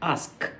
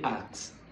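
First: The word is said with careful articulation. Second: The word is said in a distorted way. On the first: The speaker calls it right. "The right word is ask. You articulate the word ask in the right manner" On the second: The speaker calls it wrong. "You can't say ask"

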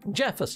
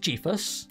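First: The first syllable has a short 'e' vowel. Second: The first syllable has a long 'ee' vowel. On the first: "Jeff as in Jeff" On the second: "I think it's Jeefus"

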